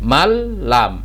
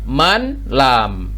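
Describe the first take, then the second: First: The n merges into the l. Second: The n is pronounced before the l. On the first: "tapi dibacanya jadi"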